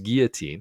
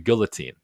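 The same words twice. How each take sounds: First: The word is pronounced the French way. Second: The word is pronounced as its English spelling suggests. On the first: "as the French would pronounce it" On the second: "he calls it a guillotine"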